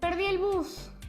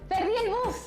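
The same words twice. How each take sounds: First: It is said with sadness. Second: It is said with joy.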